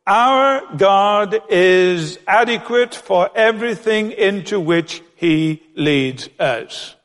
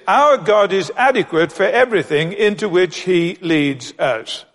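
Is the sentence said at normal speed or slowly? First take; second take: slowly; normal. First: It is said slowly. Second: It is said at normal speed.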